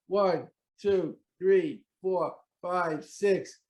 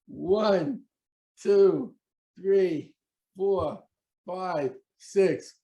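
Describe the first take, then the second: First: The counting is a little faster. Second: The counting is at an ordinary, slower pace.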